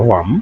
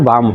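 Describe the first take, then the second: First: The word starts with a w sound. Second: The word starts with a b sound. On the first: The speaker calls it right. "কিন্তু এটা উচ্চারণ হলো ওয়ার্ম" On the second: The speaker calls it wrong. "ওমনে তো বাম হয়"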